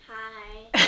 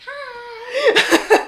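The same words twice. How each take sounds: First: It sounds flat and unenthusiastic. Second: It sounds lively and very enthusiastic.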